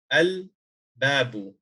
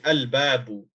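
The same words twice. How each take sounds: First: Very slow al-babu, each sound held, lam clear; slow Arabic demo. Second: Al-babu with the lam clearly sounded; Arabic pronunciation demo. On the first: Teacher slowly repeating al-babu for students. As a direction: draw al-babu out slowly for the class. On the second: Teacher modelling al-babu for students. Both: Shown as a demonstration. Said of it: "So you say".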